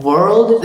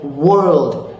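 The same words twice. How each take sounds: First: "world" with lips barely rounded, nearly vorld; wrong Indian W. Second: "world" slowly, lips rounded into w. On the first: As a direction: start "world" close to a v. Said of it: "that's gonna be wrong". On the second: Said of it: "round your lips". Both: Shown as a demonstration.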